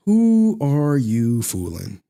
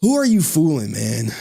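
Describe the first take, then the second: First: "Who are you fooling?" drawn out slowly, each word weighed; slow it right down to rub it in; pointed, deliberate slow repeat; slow emphatic repeat. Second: Said in the usual way. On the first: Shown as a demonstration.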